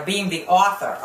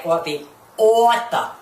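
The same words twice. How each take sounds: First: Said in the usual way. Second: AUTHOR drawn out as "aw-tha", mocking her; mimicked pronunciation. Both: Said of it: "as she says".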